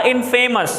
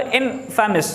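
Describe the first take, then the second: First: "infamous" with a long FAY in the middle; wrong pronunciation. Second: "infamous" with no FAY in it, in-fuh-mus; correct pronunciation. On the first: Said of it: "infamous नहीं होता". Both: Shown as a demonstration.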